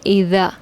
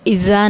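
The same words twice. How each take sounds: First: The consonant is a soft th sound. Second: The consonant is a plain buzzing z sound. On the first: The speaker calls it right. "इज़ा ये ठीक है" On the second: The speaker calls it wrong. "इज़ा नहीं पढ़ना, इज़ा गलत है"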